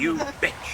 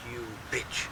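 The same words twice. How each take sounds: First: Much higher-pitched mock insult; high, punched imitation of swearing; emphatic retold curse. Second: Quietly imitated swearing at a dog; muttered curse. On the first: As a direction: throw the curse at the dog, pitched up. Repeats his curse at the dog. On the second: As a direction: curse the dog under your breath. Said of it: "Then I went".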